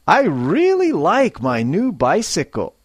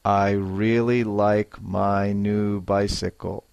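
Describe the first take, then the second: First: Higher, with feeling on really; lively and pleased. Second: Said in the usual way. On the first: Shown as a demonstration. Teacher modelling for students, bright and lively. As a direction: sound happy about the bike. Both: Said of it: "a little more feeling and life".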